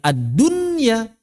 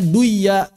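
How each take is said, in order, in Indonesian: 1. Bunyi n jelas terdengar sebelum y. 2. Bunyi n melebur ke dalam y yang mengikutinya. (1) "Kita baca apa? Ya ad-dunya" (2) "Kenapa kita tidak membacanya duya?"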